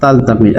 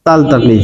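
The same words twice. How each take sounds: First: তালতাকি said lower and clearly again; modelled pronunciation. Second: তালতাকি said low and clear as a model; modelled pronunciation. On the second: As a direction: drop the pitch and model তালতাকি. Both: Shown as a demonstration. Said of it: "লা".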